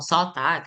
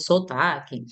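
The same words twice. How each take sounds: First: It is said in a northeastern Brazilian accent. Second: It is said in a southern Brazilian accent. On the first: "Os nordestinos falam sotaque" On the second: "nós aqui do sul falamos sotaque"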